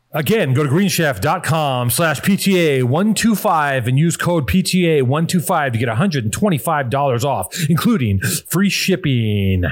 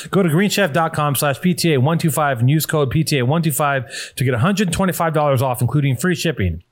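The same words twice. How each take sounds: First: Slow, stretched-out ad read, drawing out "free shipping"; slow deliberate repeat. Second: Said in the usual way. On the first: Real, not acted. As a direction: spell out the offer slowly. Slow repeat of promo code.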